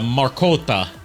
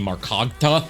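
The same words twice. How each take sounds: First: The name is said without a G sound. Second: The name is said with a G sound.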